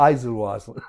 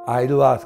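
First: It is said with a z sound: ai-zu-ru-waasu. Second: It is said without a z sound: ai-ru-waasu. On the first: This is the original pronunciation. The speaker calls it right. "正しい発音だと" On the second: This is the usual Japanese name. The speaker calls it wrong. "日本語ではアイルワースのモナリザって言われてる"

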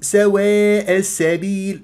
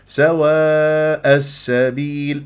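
First: The long a vowels lean toward an e sound. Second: The long a vowels stay fully open and flat. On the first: The speaker calls it wrong. "وما أقول سواء السبيل" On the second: The speaker calls it right. "هكذا بهذه الطريقة ما أميل الألفات"

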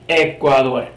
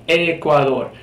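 The two takes are said the same way.

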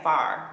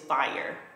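First: The word is said with a St. Louis accent. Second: The word is said with a standard accent. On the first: The speaker calls it wrong. "the St. Louis in me is saying far" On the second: The speaker calls it right. "but it's fire"

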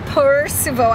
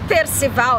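First: The name is pronounced with English sounds. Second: The name is pronounced with Brazilian Portuguese sounds. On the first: The name sounds foreign and elegant. The speaker calls it right. "é Percival. ... agora melhorou muito" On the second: The name seems to be an ordinary Brazilian name. The speaker calls it wrong. "não é Percival"

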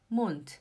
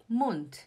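No difference in how they are said.

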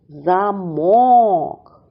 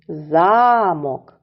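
First: The stress is on the second syllable. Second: The stress is on the first syllable. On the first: "Наголос падає на другий склад" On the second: "В цім слові припадає на перший склад"

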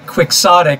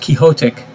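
First: It is said with the usual American pronunciation. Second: It is said like the name Quixote. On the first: The speaker calls it wrong. "Americans say quixotic" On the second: The speaker calls it right. "but actually it's quixotic, because it's Don Quixote"

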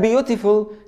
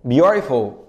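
First: The middle t is a hard t. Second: The middle t is a quick tongue tap. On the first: The speaker calls it wrong. "ما تقوليش بقى beautiful" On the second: The speaker calls it right. "طرف لسانك يخبط في سقف بقك"

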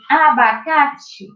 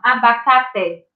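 First: The final vowel sounds like 'ee'. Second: The final vowel sounds like 'eh'. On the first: The speaker calls it right. "a tia falou ti" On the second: The speaker calls it wrong. "Eu não vou ler essa palavra assim"

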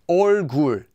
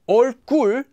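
First: The second syllable starts with a plain consonant. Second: The second syllable starts with a tense consonant. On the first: The speaker calls it right. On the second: The speaker calls it wrong. "It doesn't become"

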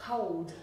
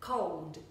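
The two takes are said the same way.

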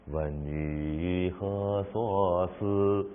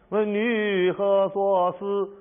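First: It is said in a low, gentle register. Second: It is said in a high, demanding register. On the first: It sounds like a caring inquiry. The speaker calls it right. "下调。" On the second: It sounds like an interrogation. The speaker calls it wrong. "用上调，问问女何所思，问女何所忆，你是质问他，有那么问的吗？"

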